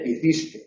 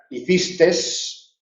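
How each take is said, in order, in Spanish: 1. La palabra termina en vocal, sin s. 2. La palabra termina con un sonido s añadido.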